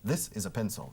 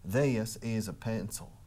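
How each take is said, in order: First: It is said in a neutral American accent. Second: It is said in a Texas drawl, syllables stretched. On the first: "It's typical American, standard, neutral American accent" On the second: "Los tejanos alargan las palabras"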